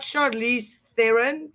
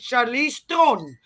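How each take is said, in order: First: The surname is said with two syllables. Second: The surname is said as one syllable, 'Tron'. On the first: The speaker calls it wrong. "it's not Charlize Theron" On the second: The speaker calls it right. "That's a South African name. That's how you pronounce it"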